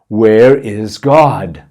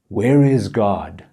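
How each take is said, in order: First: It is said noticeably louder. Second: It is said at normal, quieter volume.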